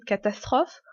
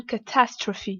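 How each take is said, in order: First: "catastrophe" said the French way; French pronunciation. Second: "catastrophe" stressed on TAS, ending in "fee"; English pronunciation. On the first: Teacher asking how it is pronounced, French pronunciation. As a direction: say "catastrophe" as in French, silent final e. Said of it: "comme en français catastrophe". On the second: Teacher confirming the word after the recording, English pronunciation. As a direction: say "catastrophe" as English "kuh-TASS-truh-fee". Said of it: "il se prononce pas du tout comme le français". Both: Shown as a demonstration.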